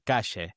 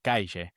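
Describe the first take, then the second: First: It is said in an Argentinian accent. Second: It is said in a southern Spanish accent. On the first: "the Argentinian version" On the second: "the southern Spanish accent. Um so it could be like calle"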